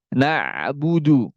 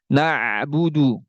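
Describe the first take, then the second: Both takes have the same delivery.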